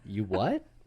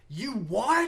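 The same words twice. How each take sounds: First: It is said at a normal volume. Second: It is screamed loudly like the SpongeBob character.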